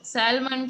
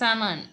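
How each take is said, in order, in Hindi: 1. L की ध्वनि साफ़ तौर पर बोली जाती है। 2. L की ध्वनि छोड़ दी जाती है।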